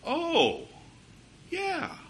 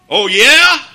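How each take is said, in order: First: It is said in a soft, agreeable tone. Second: It is said in an angry, challenging tone.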